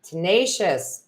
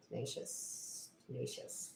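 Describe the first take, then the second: First: Said in the usual way. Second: Slow, barely audible whisper. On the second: Real, not acted. Reader repeating a word to herself, whispered. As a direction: whisper the word to yourself, drawn out.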